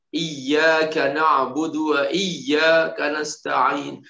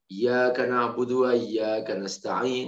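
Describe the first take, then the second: First: The y sound is held long and doubled. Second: The y sound is said short, not doubled. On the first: The speaker calls it right. "dia harus ada tasydidnya" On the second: The speaker calls it wrong. "udah nggak sah sholatnya"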